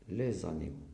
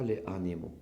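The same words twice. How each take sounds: First: A Z sound links les to animaux. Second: Les and animaux are said without a linking Z. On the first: The speaker calls it right. "il faut marquer bien sûr la liaison" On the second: The speaker calls it wrong. "On ne dit pas"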